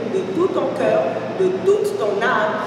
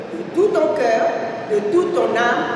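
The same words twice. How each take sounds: Both takes have the same delivery.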